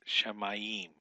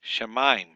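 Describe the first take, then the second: First: Shamayim said slowly in three syllables, sha-ma-yim; the mistaken shamayim; wrong three-syllable shamayim. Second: Shemaim said loud and short as two syllables; two quick beats on Shemaim; the right two-syllable Shemaim; correct shemaim. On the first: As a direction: draw out shamayim over three beats. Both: Shown as a demonstration. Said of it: "It's not three syllables".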